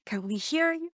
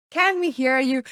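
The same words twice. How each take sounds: First: Said in the usual way. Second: Projected louder to the back of the room. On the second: Shown as a demonstration. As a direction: push the voice out so the back row hears.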